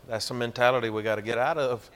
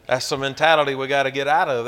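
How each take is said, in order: First: Said in the usual way. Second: "That's the mentality we gotta get out of" said again much louder, hammered home; preacher driving the point home with a louder echo; louder repeat. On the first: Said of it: "repeated louder". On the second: Shown as a demonstration. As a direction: hit the repeat hard so it lands. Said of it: "first take plain".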